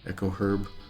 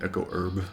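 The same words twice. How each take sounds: First: Herb is said with the h sound. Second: Herb is said without the h sound. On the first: "I really like that H in there" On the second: "we don't like to say this H"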